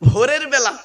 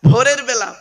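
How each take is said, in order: Both takes have the same delivery.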